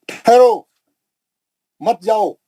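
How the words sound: The pause comes after the first word.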